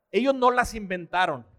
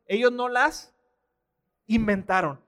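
First: Said in the usual way. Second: Long pause before "inventaron"; "ellos no las" held up, then "inventaron" dropped after a pause; emphatic repeat. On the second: Real, not acted. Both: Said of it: "Lo vuelvo a decir".

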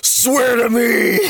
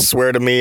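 First: High, drawn-out vigilante shout; Batman. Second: Said in the usual way. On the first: Acted. Showing what Batman yells, Bale-style shouted impression. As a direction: roar it slowly, voice straining. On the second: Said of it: "Batman yells".

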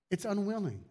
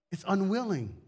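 The two takes are said the same way.

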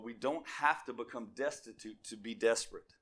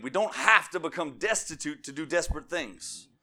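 First: Said in the usual way. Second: "have" and "destitute" punched higher and louder; preacher's repeat, leaning hard on "have"; emphatic restatement. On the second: Real, not acted. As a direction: drive home "have" in a firm repeat. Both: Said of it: "I'm gonna say that again".

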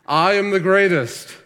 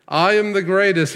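First: Loud, high boxer's boast; Ali's boast. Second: Louder, higher repeat of the boast; Ali's boast. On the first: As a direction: shout it out like a champion boxer bragging. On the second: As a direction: crow it again like the champ. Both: Retold or imitated. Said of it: "Muhammad Ali would constantly say".

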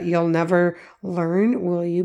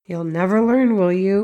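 First: Said in the usual way. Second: Mock scolding jab tacked on the end; sarcastic insult. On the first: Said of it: "we don't need the". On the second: Parent jabbing at a child over laundry, sarcastic. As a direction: sneer it as a put-down. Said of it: "maybe leaving off an insult at the end".

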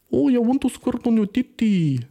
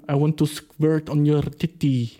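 First: High, hammed-up Indian accent; high-pitched mock Indian voice; exaggerated Indian accent. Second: Slow mock Indian accent; slow, Indian-accented commenter voice. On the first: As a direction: push the Indian commenter impression up high. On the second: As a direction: imitate an Indian commenter, drawing it out. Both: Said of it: "oder fucking indische Dudes".

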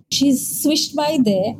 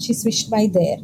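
First: Slow, drawn-out swishing words. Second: Said in the usual way. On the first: Shown as a demonstration. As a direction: draw it out like a glide. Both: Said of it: "like that".

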